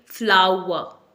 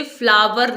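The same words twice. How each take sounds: First: फ्लावर as FLAU-wa, silent r; correct pronunciation. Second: फ्लावर as FLAA-ver, v and final r; wrong pronunciation. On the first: Teacher modelling for learners, फ्लावर as FLAU-wa. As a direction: say फ्लावर with w and open ending. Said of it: "इसे बोलेंगे फ्लावर". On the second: Teacher warning learners, फ्लावर as FLAA-ver. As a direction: say फ्लावर with a v and sounded r. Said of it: "आपने इसे फ्लावर नहीं बोलना है". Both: Shown as a demonstration.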